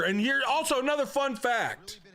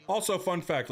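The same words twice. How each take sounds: First: Excited announcement. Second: Said in the usual way. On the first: Real, not acted. Announcing a fun fact.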